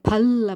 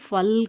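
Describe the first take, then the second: First: The word starts with an aspirated p sound. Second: The word starts with an f sound. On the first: The speaker calls it right. "பல் அப்படிங்கிறது" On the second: The speaker calls it wrong. "ஃபல் கிடையாது"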